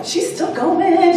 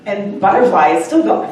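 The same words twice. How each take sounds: First: "going" stretched out high and slow; emphatic repeat. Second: Said in the usual way. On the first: Shown as a demonstration. Repeating to the audience that Butterfly keeps going, stretched high. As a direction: draw out "still going" in a high voice.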